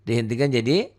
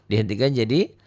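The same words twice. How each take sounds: Both takes have the same delivery.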